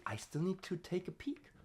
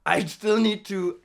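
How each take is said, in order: First: Softly whispered aside to herself. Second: Said in the usual way. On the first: Real, not acted. Checking the vowel list mid-drill, whispered aside.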